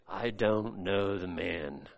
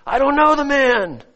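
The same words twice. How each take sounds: First: Low, soft and slow, almost under the breath; a low, drawn-out murmured denial; hushed denial. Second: A mild hammed-up angry oath; cursing denial. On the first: Acted. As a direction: deny it quietly, slowly, as if ashamed. Peter backs lie with oath. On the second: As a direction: swear it out, insisting. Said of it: "began to curse and swear".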